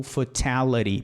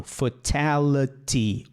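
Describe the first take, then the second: First: "fatality" with the last T tapped; changed final T. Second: "Fatality" slowly, with both Ts hard; unchanged final T. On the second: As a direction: end "Fatality" on a full "tee". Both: Shown as a demonstration. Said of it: "você pode mudá-lo".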